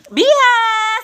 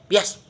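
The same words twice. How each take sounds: First: It is said cheerfully with a smile. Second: It is said grumpily without a smile.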